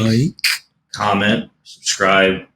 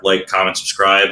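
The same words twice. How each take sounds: First: The phrase is said slowly and deliberately. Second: The phrase is said at a normal pace.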